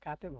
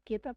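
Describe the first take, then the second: First: The first vowel is a. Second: The first vowel is e. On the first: The speaker calls it right. "কাতেব হবে ভাই" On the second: The speaker calls it wrong. "ওটা কেতাব না"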